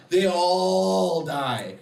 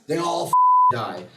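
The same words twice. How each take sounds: First: They all die dragged out, every word weighed; very slow They all die for effect; slow emphatic repeat. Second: Said in the usual way. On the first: Real, not acted.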